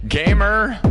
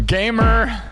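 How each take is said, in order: Both takes have the same delivery.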